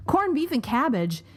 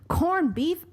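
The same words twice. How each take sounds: First: Said in the usual way. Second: Put-on a quick, high stab at an Irish accent, dropped at once; aborted Irish accent. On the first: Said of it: "so I'm not even gonna try". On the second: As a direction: start the line with a half-hearted Irish lilt and give up. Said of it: "I can't do an Irish accent".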